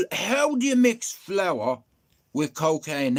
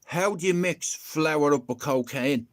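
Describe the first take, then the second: First: Slow, hitting each word; emphatic repeat. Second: Said in the usual way. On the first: Acted. Asking the audience again, slow and emphatic. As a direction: spell out the absurdity. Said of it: "repeats for emphasis".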